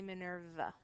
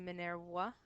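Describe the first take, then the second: First: The middle consonant sounds like a v. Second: The middle consonant sounds like a w. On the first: This is the English way. "When we pronounce her name in English" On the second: This is the Latin way. "when we pronounce her name in Latin"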